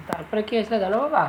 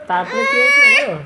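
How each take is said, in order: First: Said in the usual way. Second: Very high, loud storyteller squeal; dramatic storytelling squeal. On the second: Acted. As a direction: squeal it like a thrilling tale. Mother starts a story to child.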